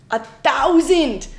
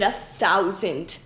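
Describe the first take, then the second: First: THOUSAND drawn out slow and loud; stress on THOUSAND. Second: Said in the usual way. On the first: Real, not acted. Marveling at cards printed, heavy slow stress on "thousand". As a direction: hit "thousand" hard and stretch it. Repeats number for emphasis.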